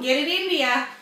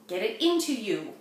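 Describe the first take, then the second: First: The words run together with sounds dropped. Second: Each word is said fully and separately.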